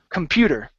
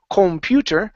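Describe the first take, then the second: First: The first syllable is reduced to 'cum'. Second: The first syllable has a full 'com' vowel. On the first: The speaker calls it right. "it's cum" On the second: The speaker calls it wrong. "We don't say com"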